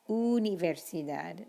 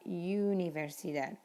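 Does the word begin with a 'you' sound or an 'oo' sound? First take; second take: oo; you. First: The word begins with a pure 'oo' sound. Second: The word begins with an English 'you' sound. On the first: The speaker calls it right. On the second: The speaker calls it wrong. "not universidad"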